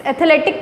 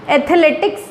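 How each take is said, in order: First: एथलेटिक stopping on the k; final s left off. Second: Said in the usual way. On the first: Shown as a demonstration. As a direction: say एथलेटिक with no s at the end. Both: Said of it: "एथलेटिक कुछ नहीं होता".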